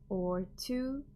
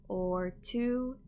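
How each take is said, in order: The two takes are said the same way.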